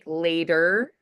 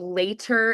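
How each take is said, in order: First: The middle consonant sounds like a soft D. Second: The middle consonant is a clear T.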